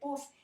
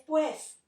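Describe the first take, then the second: First: The word has a single u vowel. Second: The word has a u glide before e. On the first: This is a lower-class form. The speaker calls it wrong. "no se dice pus" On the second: This is the standard, upper-class form. The speaker calls it right. "es pues"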